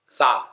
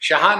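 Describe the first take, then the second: First: The name begins with an s sound. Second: The name begins with an sh sound. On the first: "जैसे गुजराती श का उच्चारण स से करते हैं" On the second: "शाह नहीं कह सकते हो"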